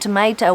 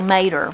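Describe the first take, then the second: First: The word has three syllables, ending in an o. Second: The word has two syllables, ending in er. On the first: "Instead of saying tomato" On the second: "We just shorten it to mater, and it's got that er"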